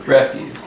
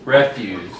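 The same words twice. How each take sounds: First: "Refuse" as ri-FYOOZ, stress on the second syllable; verb pronunciation. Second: "Refuse" as REF-yooss, stress on the first syllable; noun pronunciation. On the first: Teacher contrasting the verb "Refuse" as ri-FYOOZ. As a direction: say "Refuse" meaning to decline, ri-FYOOZ. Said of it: "that's spelled the same as refuse". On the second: Teacher showing how the dump word "Refuse" is said. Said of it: "You pronounce that". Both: Shown as a demonstration.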